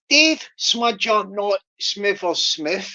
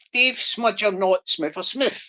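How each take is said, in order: First: Slow, careful tongue twister, each word spaced out; slowly. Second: Quicker run at the tongue twister; sped up. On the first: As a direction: take it slow so every word lands. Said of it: "I'll do it slowly". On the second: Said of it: "I'll speed it up". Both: Shown as a demonstration.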